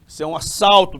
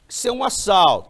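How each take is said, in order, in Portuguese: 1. É falado com um sotaque paulistano apressado. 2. É falado com sotaque carioca, com o s chiado. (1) "E o assaltante paulista?" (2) "E o assaltante carioca? Ah, esse aí chia demais"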